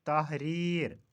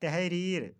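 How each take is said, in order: First: तहरीर said tah-reer; तहरीर as tahreer, drawn out; correct pronunciation. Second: तहरीर said te-he-reer; तहरीर as tehereer; mispronunciation. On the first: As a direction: say तहरीर with a clear a before h. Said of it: "सही तलफ़ुज़ तहरीर". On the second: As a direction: say तहरीर with e colouring round h. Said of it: "का सही तलफ़ुज़". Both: Shown as a demonstration.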